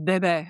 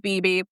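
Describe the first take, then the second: First: It sounds like the French word for baby. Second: It sounds like the English letter B twice. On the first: The speaker calls it right. "It's not, it's Bebe" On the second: The speaker calls it wrong. "I wanted to read it as B B"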